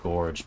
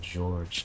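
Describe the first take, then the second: First: The name is said like Gorge. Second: The name is said like George. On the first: This is the name's real pronunciation. The speaker calls it right. "actually, it's named Gorge" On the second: The name is mispronounced on purpose for fun. The speaker calls it wrong. "I'm saying George because it's funny to mispronounce things on purpose"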